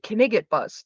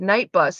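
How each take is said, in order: First: The first word is stretched into two syllables. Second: The first word is said normally, one syllable. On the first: The speaker calls it wrong. "he would read it Knigget bus" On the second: The speaker calls it right. "I could see it said night bus"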